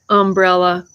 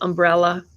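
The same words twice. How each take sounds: First: The stress is on the first syllable. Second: The stress is on the second syllable. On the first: This is how people say it in the South. "they always put the emphasis on the first syllable, like umbrella" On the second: This is the usual non-Southern way to say it. "instead of umbrella"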